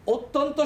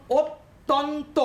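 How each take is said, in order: First: Said in the usual way. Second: অত্যন্ত slowly split into three beats, ot-ton-to; অত্যন্ত said slowly in three separate syllables. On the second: Shown as a demonstration. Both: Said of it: "তিনটে জায়গা নিয়ে উচ্চারণ করছি".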